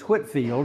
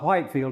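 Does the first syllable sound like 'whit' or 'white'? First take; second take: whit; white. First: The first syllable rhymes with 'bit'. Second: The first syllable rhymes with 'kite'. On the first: The speaker calls it right. "You don't pronounce the E" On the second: The speaker calls it wrong. "it's not Whitefield"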